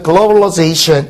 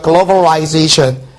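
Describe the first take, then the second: First: It is said with an American pronunciation. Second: It is said with a British pronunciation. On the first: "미국식 같은 경우에는 이제 globalization 이렇게 발음되는데" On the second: "영국식 같은 경우는 globalization 이렇게 됩니다"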